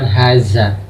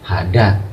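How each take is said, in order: First: The middle consonant is a 'z' sound. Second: The middle consonant is a 'd' sound. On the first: "bukan haza" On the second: "atau bukan lagi hada"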